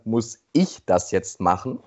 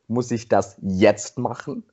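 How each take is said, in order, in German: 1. Das Wort ich ist betont. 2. Das Wort jetzt ist betont. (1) "Eine andere Betonung ist dann" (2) "Die nächste Betonung ist"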